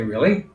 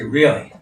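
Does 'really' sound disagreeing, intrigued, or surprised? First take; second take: surprised; disagreeing. First: It is said in a surprised tone. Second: It is said in a disagreeing tone. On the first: The speaker did not expect this. "that indicates surprise" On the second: The speaker does not accept this. "that indicates disagreement"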